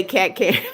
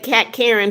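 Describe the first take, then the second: First: Said in the usual way. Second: Raised voice. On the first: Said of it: "but if a normal person". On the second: Shown as a demonstration. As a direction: greet Kat Karen like a favorite friend. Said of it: "the more she raises her voice".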